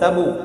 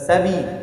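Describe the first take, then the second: First: The bounce after b sounds like u. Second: The bounce after b sounds like i. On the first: "এটা তিন তিনটাই কি ভুল।" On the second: "এটা তিন তিনটাই কি ভুল।"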